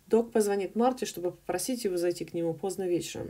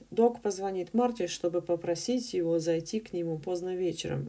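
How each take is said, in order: First: The sentence is read very fast and jumbled. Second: The sentence is read at a natural speed. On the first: "I can do it faster if you want. it's all totally jumbled" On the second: "if I read it faster, it'll sound like this. It's more of a natural speed"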